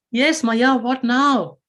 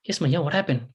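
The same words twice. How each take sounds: First: Put-on higher, exasperated child's reply; a kid fed up with being called back; Krishna answering his mother, higher and impatient; impatient boy. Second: Said in the usual way. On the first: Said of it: "Krishna goes". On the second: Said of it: "Krishna comes running back".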